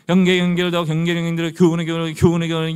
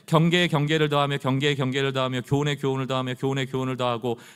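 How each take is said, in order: First: It is said as a mocking, taunting babble. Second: It is read as a plain, solemn recitation.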